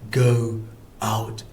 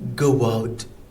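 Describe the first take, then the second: First: The two words are separate, with no w sound. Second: A w sound links the two words together. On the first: The speaker calls it wrong. "So I don't say go out" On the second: The speaker calls it right. "I kind of insert w"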